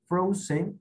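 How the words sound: The word is said with English sounds. "Frozen en inglés"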